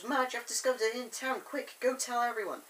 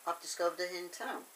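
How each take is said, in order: First: Higher, hurried mock-urgent news; urgent excitement. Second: Understated, quick remark to oneself; casual musing. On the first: Thomas sending Madge to tell everyone, acted urgency. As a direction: rush the news out in a raised pitch. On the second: Retold or imitated. Thomas taking in his find, understated casual musing. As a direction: toss the discovery off casually.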